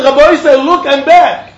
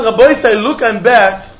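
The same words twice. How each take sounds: First: Higher, louder calling to the rabbi; retold call. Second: Said in the usual way. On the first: Man calling to the rabbi that he's back, raised call. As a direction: call out look I'm back. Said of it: "And he said". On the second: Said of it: "when he said".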